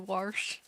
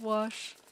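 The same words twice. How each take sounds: First: The word is said with a southern pronunciation. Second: The word is said with a standard pronunciation. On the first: This is how the grandmother said it. "My grandma used to say" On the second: This is the usual way to say it. "instead of"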